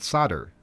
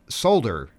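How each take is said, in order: First: The l sound is left out of the word. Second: The l sound is pronounced in the word. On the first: The speaker calls it wrong. "not Solder" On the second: The speaker calls it right. "Solder has an L in it and is pronounced Solder"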